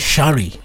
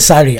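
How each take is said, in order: First: The word begins with a sh sound. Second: The word begins with a plain s sound. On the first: "where you say shari" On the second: "I say sari"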